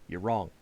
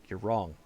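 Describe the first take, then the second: Both takes have the same delivery.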